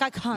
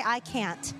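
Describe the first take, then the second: First: "can't" pronounced to sound like "cunt". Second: "can't" said in a British accent. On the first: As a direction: shorten the vowel of "can't" towards "cunt". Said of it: "sometimes it sounds like cunt". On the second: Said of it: "mostly with a British accent". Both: Shown as a demonstration.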